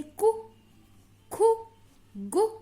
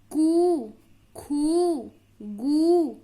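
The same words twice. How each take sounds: First: "कु, खु, गु" each with a short, quick u; short vowel. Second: "कु, खु, गु" each with a long, loud oo; long vowel. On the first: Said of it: "जल्दी से उस शब्द को बोलते हैं". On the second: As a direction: hold the oo in each of "कु, खु, गु". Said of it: "बड़ा ऊ मात्रा लगा है". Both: Shown as a demonstration.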